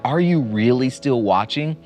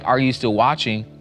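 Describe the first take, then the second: First: It is said in an accusing, attacking tone. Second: It is said in a plain, neutral tone.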